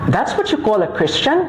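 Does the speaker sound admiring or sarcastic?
sarcastic. The phrase sounds mocking and doubtful.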